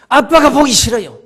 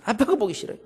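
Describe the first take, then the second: First: Put-on louder, resentful child's outburst; mildly hammed-up childish protest; boy's blurted answer. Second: Said in the usual way. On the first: A narrator's reading. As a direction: blurt it out as a defiant boy. Boy answers police with his reason.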